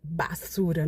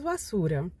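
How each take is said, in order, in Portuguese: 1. Começa com um som de B forte e claro. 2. Começa com um som suave, parecido com V. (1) "normalmente não é muito bem pronunciado, por exemplo, basura, não" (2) "Seria mais ou menos arrastado assim, que se lembra mais ou menos um V"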